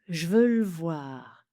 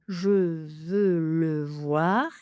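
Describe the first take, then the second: First: Two vowels are dropped, giving two syllables. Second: Every vowel is pronounced, giving four syllables. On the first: "On peut encore en enlever une" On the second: "quatre syllabes"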